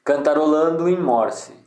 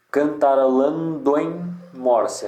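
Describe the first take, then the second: First: Said in the usual way. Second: Slow "cantarolando em morse", with "do" and "em" run together; joined syllables. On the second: Shown as a demonstration. Teacher showing a junction, slow scanned "cantarolando em morse". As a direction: scan it slowly, drawing out "lan" in "cantarolando". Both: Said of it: "aqui junta também".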